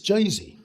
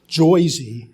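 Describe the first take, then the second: First: It has a plain, unexaggerated vowel sound. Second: It has an exaggerated New York vowel sound. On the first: The speaker calls it right. "it's not Joyzy, it's Jersey" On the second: The speaker calls it wrong. "made a lot of fun of my New York accent. They usually uh, accentuated it too much"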